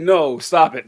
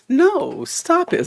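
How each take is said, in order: First: It is said as a firm, real refusal. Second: It is said playfully, not really refusing.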